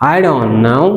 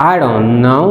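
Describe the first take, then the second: Both takes have the same delivery.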